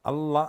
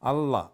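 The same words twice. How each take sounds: Both takes have the same delivery.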